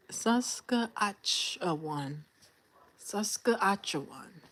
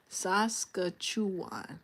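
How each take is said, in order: First: "Saskatchewan" slowly, as "Saska-atch-uh-wan"; sounding it out. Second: "Saskatchewan" slowly as "Saska-chu-wan"; corrected pronunciation. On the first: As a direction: struggle through "Saskatchewan" syllable by syllable. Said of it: "Dang, that's a tongue twister". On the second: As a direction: say "Saskatchewan" smoothly with "chu" in place of "atch". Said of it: "How I pronounce that?". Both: Real, not acted.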